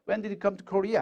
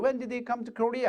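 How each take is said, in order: First: Said in the usual way. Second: Very slow, ending falls on Korea; wh-question with a falling end; falling question tune. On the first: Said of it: "하고 말하면 되는 거죠". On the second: Shown as a demonstration. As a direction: let the question drop at the end, slowly. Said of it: "의문사가 있으면 뒤를 내려 읽습니다".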